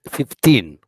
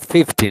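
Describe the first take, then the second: First: The stress is on the last syllable. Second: The stress is on the first syllable. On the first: The speaker calls it right. "with the stress in the last syllable" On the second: The speaker calls it wrong. "it's not fifteen"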